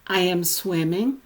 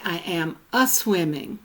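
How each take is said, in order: First: Said in the usual way. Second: Extra "uh" before swimming in "a-swimming"; Gaelic-style a-prefix. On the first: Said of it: "is in Gaelic". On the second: Shown as a demonstration. Lecturer giving the Gaelic form, a-prefixed "a-swimming". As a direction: say "a-swimming" with a little uh joined on. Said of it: "hear the little extra "uh".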